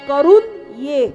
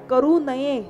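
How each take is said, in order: First: The break comes after the n sound. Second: The break comes before the n sound. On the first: Go do it and come back. "नये मधला न काढला आणि करू जवळ नेऊन ठेवला" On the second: One should not do it. "हा वाक्य बघा किती सुंदर आहे"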